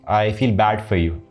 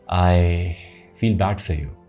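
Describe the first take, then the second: First: It sounds flat and dismissive, without real feeling. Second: It sounds deep, warm and sincerely sympathetic. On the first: The sympathy is not really meant. The speaker calls it wrong. "Don't be like" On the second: The sympathy is truly felt. The speaker calls it right. "express genuine sympathy. The depth in your voice, the expression, the tonality will change"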